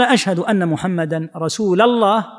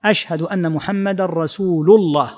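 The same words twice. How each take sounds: First: "رسول" ending in a, "rasuula-llah"; fatha on rasul. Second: "رسول" ending in u, "rasuulu-llah"; damma on rasul. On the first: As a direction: join "رسول" to "الله" with "la" instead of "lu". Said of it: "أضحت بدلا". (نصب لام «رسول»: رسولَ الله) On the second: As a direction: join "رسول" to "الله" with a clear "lu". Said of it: "لا بد أن تكون بالضم". (ضمّ لام «رسول»: رسولُ الله) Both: Shown as a demonstration.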